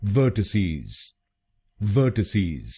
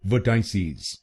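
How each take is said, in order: First: Vertices said as VER-ti-seez, short ti, ending in z; the right way, vertices as ver-ti-seez; correct pronunciation. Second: Vertices said as ver-tai-sees, with a long TAI in the middle; the common mistake, vertices with TAI; wrong pronunciation. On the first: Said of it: "इसकी सही pronunciation है". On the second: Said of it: "कुछ लोग इस शब्द को गलत बोलते हैं". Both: Shown as a demonstration.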